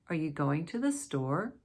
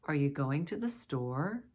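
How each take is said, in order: Both takes have the same delivery.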